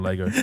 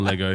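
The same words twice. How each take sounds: First: It is said in the speaker's usual plain accent. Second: It is said in a local Gawler accent.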